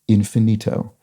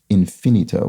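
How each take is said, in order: First: The stress is on the third syllable. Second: The stress is on the second syllable. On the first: The speaker calls it right. "will stress its penultimate syllable" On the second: The speaker calls it wrong. "accented like infinity with second syllable stress. So, not pronounced infinito"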